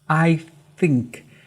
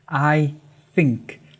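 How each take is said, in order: First: The word begins with a th sound. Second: The same.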